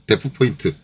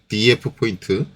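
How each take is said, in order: First: The first part is said as one syllable. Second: The first part is spelled out letter by letter. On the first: "데프 포인트라고 얘기하시는 분도 계시고" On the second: "앞에 줄임말이니까 어, 디이에프 포인트라고 얘기하시는 분들도 계시고"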